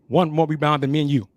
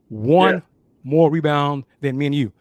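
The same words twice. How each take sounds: First: The phrase is said at a normal, quicker pace. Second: The phrase is said slowly and deliberately.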